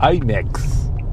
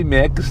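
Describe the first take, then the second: First: IMAX is pronounced with English-style vowels. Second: IMAX is pronounced with Portuguese-style vowels. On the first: The speaker calls it right. "pra ti que não fala inglês assim como eu" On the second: The speaker calls it wrong. "não é IMAX"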